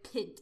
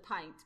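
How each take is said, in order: First: The word is said as guessed from spelling. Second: The word is said with its standard pronunciation. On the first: The speaker calls it wrong. "I say, like, pint instead of pint because I would read it and not know how to pronounce it" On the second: The speaker calls it right. "instead of pint"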